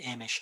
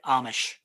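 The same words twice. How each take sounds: First: It is said with a British pronunciation. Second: It is said with a North American pronunciation. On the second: "I think that's more North American"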